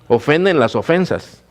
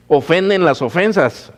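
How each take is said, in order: First: ¿Ofenden las ofensas? with the weight moved onto "ofensas"; stress on ofensas. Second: ¿Ofenden las ofensas? with the weight on "Ofenden", higher pitch; stress on ofenden. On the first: Pastor repeating the question, now stressing "ofensas". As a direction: land on "ofensas", falling tune. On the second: Pastor asking the congregation, stressing "Ofenden". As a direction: hit "Ofenden" first, falling at the end. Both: Shown as a demonstration. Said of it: "escuche la pregunta, es que analícela bien".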